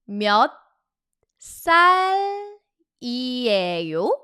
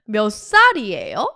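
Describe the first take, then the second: First: It is said slowly. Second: It is said at normal speed.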